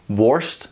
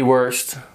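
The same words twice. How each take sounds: First: It is said with the Dutch vowel sound. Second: It sounds like the English word worst. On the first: The speaker calls it right. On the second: The speaker calls it wrong.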